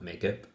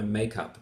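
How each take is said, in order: First: The stress is on the second part. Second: The stress is on the first part. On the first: The speaker calls it wrong. "and not makeup" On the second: The speaker calls it right. "I'm putting up my makeup"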